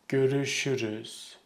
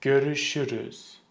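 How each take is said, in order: Both takes have the same delivery.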